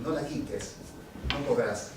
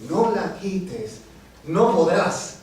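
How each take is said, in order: First: Low, soft poetic line; soft recitation. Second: Slow, firm poetic refrain; emphatic recitation. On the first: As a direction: say it quietly, letting it settle. Poem line first said softly. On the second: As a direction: declaim it with weight on each word. Poem line repeated with force. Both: Acted.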